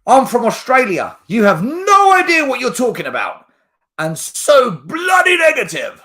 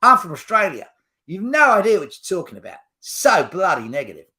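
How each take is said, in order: First: High, loud tirade from an angry commenter; mock outraged shout. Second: Australian accent. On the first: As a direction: yell it like an indignant fan having a go. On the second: Shown as a demonstration. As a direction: do a hammed-up Aussie complaint. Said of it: "let me do an Australian accent".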